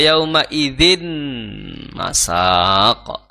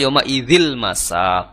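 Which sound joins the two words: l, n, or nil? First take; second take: n; l. First: The n is kept and no l is heard. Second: The n is dropped and an l is heard. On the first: "Maka ini salah ya" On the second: "Maka ini salah ya"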